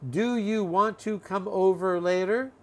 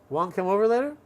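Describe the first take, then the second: First: Every word is said fully and separately. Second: The opening is squeezed down to almost nothing. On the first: "from long"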